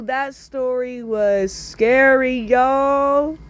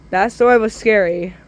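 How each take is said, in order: First: Slow emphatic "scary"; drawn-out reaction; slow drawn-out remark. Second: Said in the usual way. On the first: Real, not acted. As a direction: stretch it for effect. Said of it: "host wraps up". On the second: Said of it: "host repeats".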